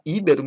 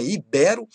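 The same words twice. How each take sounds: First: "íbero" stressed on initial Í; stress on first syllable. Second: "ibero" stressed i-BE-ro. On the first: Teacher quoting what many people say, "íbero" stressed on Í. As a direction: hit the Í of "íbero". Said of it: "gosta de falar íbero". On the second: Teacher correcting a common error, "ibero" stressed on BE. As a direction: hit BE in "ibero". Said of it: "mas não é ibero". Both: Shown as a demonstration.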